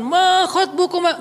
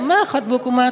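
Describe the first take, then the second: First: It is said in a stern preacher's tone. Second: It is said softly and gently.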